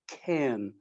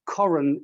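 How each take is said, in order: First: The word is said in its familiar English form. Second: The word is said in its local mountain-name form.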